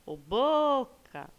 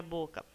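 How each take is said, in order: First: "boca" drawn out on the first syllable, like calling someone; calling the word. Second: Said in the usual way. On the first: Shown as a demonstration. Teacher calls the word for her pupils, stretched stress on BO in "boca". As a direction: call out "boca" with BO long, high and loud. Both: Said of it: "Chamem a palavrinha boca".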